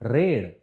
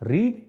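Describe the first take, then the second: First: The vowel sounds like in 'red'. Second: The vowel does not sound like in 'red'. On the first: It is the past-tense form. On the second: It is the present-tense form.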